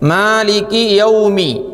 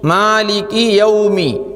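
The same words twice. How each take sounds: No difference in how they are said.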